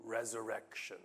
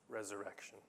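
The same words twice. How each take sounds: First: Said in the usual way. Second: Resurrection softer and lower, dropped almost to a murmur; hushed repeat. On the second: Shown as a demonstration. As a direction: repeat Resurrection quietly so it sinks in. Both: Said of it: "it's the Hebrew word for".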